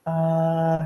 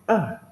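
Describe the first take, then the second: First: A held level and steady, tone one; level tone A, no rise or fall; flat first tone. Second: A dropped sharply from high, like someone angry; mock angry falling A; falling fourth tone. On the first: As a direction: sing A on one flat pitch. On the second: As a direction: bark a short falling A. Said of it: "kayak orang marah ya". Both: Shown as a demonstration.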